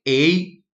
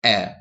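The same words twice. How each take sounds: First: "A" said as ay, as in game; long A sound. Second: "A" said as a short open eh-like vowel; isolated short "A", not the ay glide; short A sound. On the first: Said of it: "we pronounce this like A". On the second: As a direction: give "A" short, as the sound to avoid. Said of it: "not A". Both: Shown as a demonstration.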